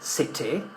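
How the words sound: The middle T is a clear T sound. "in British English we would say"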